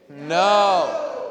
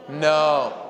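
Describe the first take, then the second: First: It is said forcefully, with conviction. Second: It is said half-heartedly, without conviction.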